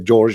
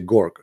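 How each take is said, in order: First: The name begins with a soft J sound. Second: The name begins with a hard G sound. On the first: This is the standard pronunciation. "You say George" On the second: This is how people in Egypt say it. "in Egypt, the letter J, they don't say J, they say uh, Gorg"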